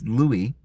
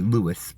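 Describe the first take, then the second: First: The name is said the other, non-American way. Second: The name is said the common American way. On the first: The speaker calls it right. "but it's Louis" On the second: The speaker calls it wrong. "Here in America, I think we all, a lot of us say Louis"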